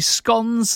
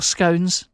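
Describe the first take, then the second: First: "scones" with short o, rhyming with gone; first pronunciation of scones. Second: "scones" with long o, rhyming with bones; alternative pronunciation of scones. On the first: Presenter listing event food, short-o "scones". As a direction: say "scones" as "skons". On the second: Presenter offering the other version, long-o "scones". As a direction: say "scones" slowly as "skohns". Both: Shown as a demonstration. Depending how posh you are.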